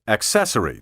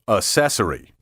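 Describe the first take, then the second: First: The double C is said as K plus S. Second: The double C is said as a single S. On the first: The speaker calls it right. "that goes for the word accessory, too" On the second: The speaker calls it wrong. "Don't let me catch you saying accessory"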